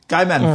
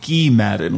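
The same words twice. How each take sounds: First: The first name is said the plain English way. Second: The first name is said the French way. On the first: The speaker calls it right. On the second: The speaker calls it wrong.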